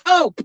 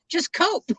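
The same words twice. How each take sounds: First: Louder one-word order, imitating dad; raised voice. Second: Higher, imitating dad's slight snicker; little snicker. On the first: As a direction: raise your voice as dad would. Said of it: "he would say it with a raised voice". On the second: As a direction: put a little snicker in it, like dad. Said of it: "Dad would put a little snicker in that".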